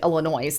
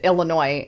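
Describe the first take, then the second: First: The word is said with an extra added sound. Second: The word is said without any extra added sound. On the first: The speaker calls it wrong. "instead of Illinois ... adds a little extra to it because of my accent" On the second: The speaker calls it right. "pronounce it Illinois"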